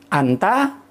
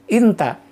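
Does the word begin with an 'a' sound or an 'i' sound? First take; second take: a sound; i sound. First: The word begins with an open 'a' vowel. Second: The word begins with a close 'i' vowel. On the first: This is the formal standard form. "Nah kalau fushanya kan anti. Anta" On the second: This is the everyday colloquial form. "lahjahnya inta. Jadi inta nyebutnya itu"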